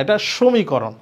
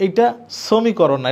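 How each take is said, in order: First: সমীকরণ said clearly as the correct form; right pronunciation. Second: সমীকরণ said slowly as the wrong version; slow, careful wrong সমীকরণ; wrong pronunciation. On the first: Teacher giving students the right form, clear and firm. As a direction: land firmly on the correct সমীকরণ. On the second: Teacher showing students the wrong way, slow and deliberate. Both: Shown as a demonstration. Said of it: "তাহলে".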